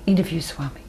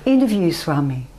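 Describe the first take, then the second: First: It is said very quietly. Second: It is said more loudly.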